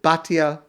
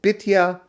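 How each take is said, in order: First: The first vowel is an 'ah' sound. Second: The first vowel is an 'ee' sound. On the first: "most pronounce it Batya" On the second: "Some pronounce it Bitya"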